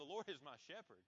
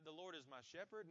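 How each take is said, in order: First: It is said firmly, sounding confident. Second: It is said hesitantly, sounding unsure. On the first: The speaker knows that it is true. The speaker calls it right. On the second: The speaker doubts that it is true. The speaker calls it wrong.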